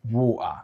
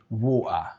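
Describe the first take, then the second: First: The middle T is a glottal stop. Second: The same.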